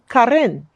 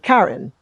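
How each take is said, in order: First: The R in the name is rolled. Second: The R in the name is not rolled. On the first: "I'm learning to roll my R's" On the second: "So I said Karen"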